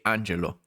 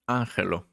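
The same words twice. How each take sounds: First: The name is pronounced the Italian way. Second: The name is pronounced the Spanish way. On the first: "my name is Italian. You have to say Angelo" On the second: "my name here in Spain, they will say Angelo"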